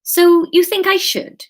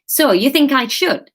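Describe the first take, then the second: First: Higher, louder character question; Kate's questioning line. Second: Put-on higher question in a Wigan accent; Graham's Wigan accent. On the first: Acted. Kate asks Graham for his opinion, higher questioning voice. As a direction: ask it brightly pitched up, as Kate. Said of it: "she asked". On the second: Reader mistakes Kate's line for Graham's, Wigan accent. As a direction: ask it in a light Wigan accent. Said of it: "no, that was Kate's line".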